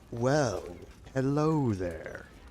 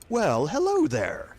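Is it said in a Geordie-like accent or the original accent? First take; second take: original; Geordie-like. First: It is said in Grizzly's original accent. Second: It is said in a slightly changed, Geordie-like accent.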